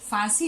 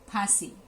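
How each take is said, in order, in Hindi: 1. यह f ध्वनि से शुरू होता है। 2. यह हल्की साँस वाली p ध्वनि से शुरू होता है।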